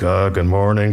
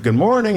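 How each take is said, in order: First: Low, embarrassed mumbled-style greeting; sheepish. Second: Breezy greeting. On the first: Guest leaving neighbor's house greets wife, sheepish. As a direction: imitate someone caught on the walk of shame. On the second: Wife greets the departing guest, breezy greeting. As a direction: imitate an untroubled greeting, pitch lifted well up. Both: Retold or imitated. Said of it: "kind of the walk of shame".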